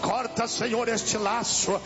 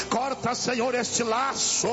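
Both takes have the same delivery.

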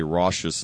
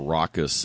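First: RAUCOUS said with a different middle consonant; contested pronunciation. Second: Said in the usual way. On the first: Shown as a demonstration. Host quoting the criticized word to listeners, contested pronunciation. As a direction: say "raucous" the disputed way, not with a K. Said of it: "'cause I say raucous instead of raucous". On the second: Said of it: "instead of raucous".

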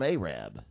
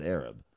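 First: "Arab" as AY-rab; "Arab" with a long AY and a full rab; local town pronunciation. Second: "Arab" as AIR-ub; low "Arab", like the word for the people; mistaken town pronunciation. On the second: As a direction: give "Arab" a short, weak second syllable. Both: Shown as a demonstration. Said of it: "except I said Arab".

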